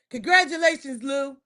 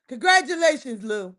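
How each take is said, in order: Both takes have the same delivery.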